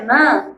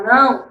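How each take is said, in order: First: "nã" with an open nasal vowel, no final glide; Maranhão pronunciation. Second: Said in the usual way. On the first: Shown as a demonstration. Teacher shows students how Maranhão says no, clipped-ending "nã". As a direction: say "nã", dropping the "o" of "não". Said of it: "vocês falam é nã". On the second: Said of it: "em vez de falar não".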